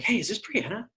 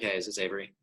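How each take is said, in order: First: It sounds energetic and cheerful. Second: It sounds bored and tired.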